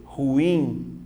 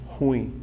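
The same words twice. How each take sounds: First: "Ruim" drawn out as ru-IM; correct pronunciation. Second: "Ruim" as one quick syllable, RUIN; wrong pronunciation. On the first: Teacher showing how it must be said, correct pronunciation. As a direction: stretch "Ruim" into two syllables, stressing IM. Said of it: "Como você tem que fazer?". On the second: Teacher showing the everyday habit, wrong pronunciation. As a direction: run "Ruim" together with the stress on U. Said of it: "essa pronúncia, ela tá errada". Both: Shown as a demonstration.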